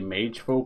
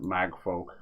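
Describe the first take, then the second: First: The first word has a long 'ay' vowel. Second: The first word has a short 'a' vowel. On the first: This is how the speaker would naturally read it. "I want to say mage folk because of the e" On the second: This is how the game itself pronounces it. "they're pronouncing it mag folk"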